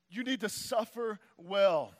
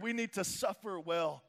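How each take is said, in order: First: "need" leaned on, whole line slowed; stress on need. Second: Said in the usual way. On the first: Shown as a demonstration. Preacher repeats it to the congregation, leaning on "need". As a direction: press hard on "need" in "You need to suffer well".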